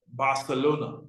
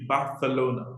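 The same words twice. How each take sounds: First: "Barcelona" with an S sound for the C; English pronunciation. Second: "Barcelona" with a th sound for the C; Spanish pronunciation. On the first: Teacher gives common option, "Barcelona" with S for C. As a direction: say "Barcelona" as Bar-se-lona. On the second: Teacher shows local form, "Barcelona" with th for C. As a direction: say "Barcelona" as Ba-the-lona. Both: Shown as a demonstration. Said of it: "They don't say the C".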